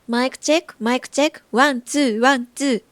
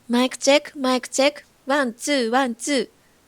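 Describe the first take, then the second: First: The voice has a flat, natural tonal balance. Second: The voice has boosted high treble frequencies. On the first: "これはナチュラルです。" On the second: "これは明るいエフェクトです。"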